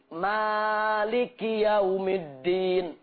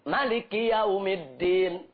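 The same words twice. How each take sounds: First: The vowel after the first m is long. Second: The vowel after the first m is short. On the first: "memanjangkan mim. ... Mimnya panjang" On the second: "memendekkan mim. ... Pendek"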